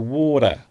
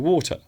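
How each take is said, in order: First: The middle consonant sounds like a soft D. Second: The middle consonant is a clear T sound. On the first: "with an American accent ... It sounds more like the letter D" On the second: "in British English, we do often pronounce the T in water"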